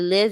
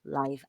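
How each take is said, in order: First: The vowel is a short 'ih' sound. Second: The vowel is an 'eye' sound, as in alive. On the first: It is used as a verb. "Live would be the pronunciation if you're saying I live in Seoul" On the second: It is used as an adjective. "if it's an adjective, you say live. I"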